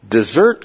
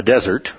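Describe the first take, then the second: First: "Desert" as di-ZURT, stressed on the second syllable; verb pronunciation. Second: "desert" as DEZ-ert, stressed on the first syllable; contrasting pronunciation. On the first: Teacher explaining the word for leaving, "Desert" said di-ZURT. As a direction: say "Desert" like the verb meaning abandon. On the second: Teacher ruling out a wrong meaning, "desert" said DEZ-ert. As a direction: say "desert" like the dry wasteland. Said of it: "a dessert full of calories". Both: Shown as a demonstration.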